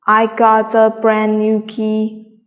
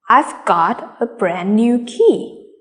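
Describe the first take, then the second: First: The key words are said without extra stress. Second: The key words are said with clear stress.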